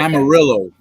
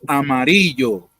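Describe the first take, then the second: First: The name is said with English pronunciation. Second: The name is said with Spanish pronunciation. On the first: The speaker calls it wrong. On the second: The speaker calls it right.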